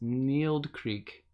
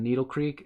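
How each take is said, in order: First: The first word sounds like one syllable, 'neeld'. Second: The first word sounds like two syllables, 'nee-dle'. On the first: The speaker calls it right. "It's Neeld Creek" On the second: The speaker calls it wrong. "I think I said Needle Creek wrong"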